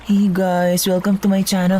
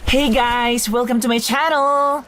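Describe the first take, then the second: First: It is said flatly, with little energy. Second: It is said with lots of energy.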